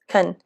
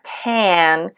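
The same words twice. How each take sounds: First: The vowel is reduced to a weak sound. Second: The vowel is said fully and clearly. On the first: The speaker calls it right. "notice the reduction here" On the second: The speaker calls it wrong. "not can"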